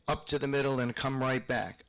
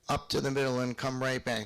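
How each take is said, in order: First: The emphasis falls on the downbeat. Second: The same.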